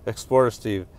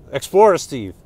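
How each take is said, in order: First: Said in the usual way. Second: EXPLORER said louder and higher, with a falling end; emphatic correction. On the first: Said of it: "Sorry, Steve". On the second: Real, not acted. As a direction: land on "Explorer" as the right name, firmly. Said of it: "Darn it".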